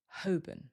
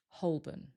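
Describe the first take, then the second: First: No L sound is heard; second syllable is weak. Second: A very light L sound is heard. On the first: "we don't usually hear the L, and the second syllable becomes weaker" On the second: "Some people might pronounce the L. If they do, it's very light"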